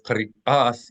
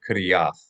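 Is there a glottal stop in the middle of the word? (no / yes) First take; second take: yes; no. First: A glottal stop breaks the word before the vowel. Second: The vowels run together with no glottal stop. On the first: The speaker calls it right. "So it's kari ath" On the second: The speaker calls it wrong. "instead of kariath"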